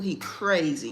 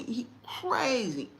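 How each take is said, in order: First: Said in the usual way. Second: Slowly drawn out; slow emphasis. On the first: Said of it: "repeated for emphasis". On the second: Real, not acted. Telling moms slowly about the son. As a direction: stretch it to drive it home. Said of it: "repeated slow emphasis".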